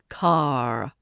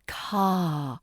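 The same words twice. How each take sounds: First: The final r is pronounced. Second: The final r is silent. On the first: The speaker calls it wrong. "not car" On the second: The speaker calls it right. "The R is silent. It's car"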